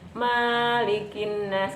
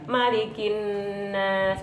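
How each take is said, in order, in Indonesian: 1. Vokal pertama 'ma' dibaca panjang. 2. Vokal pertama 'ma' dibaca pendek. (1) "Ketika ma dibaca panjang artinya Allah Maha Pemilik" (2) "Ini berarti ma dibaca pendek"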